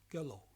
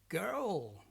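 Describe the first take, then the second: First: The final L is weak or missing. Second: The final L sounds deep and long. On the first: The speaker calls it wrong. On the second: The speaker calls it right. "sounds deeper, longer, and sounds like oh"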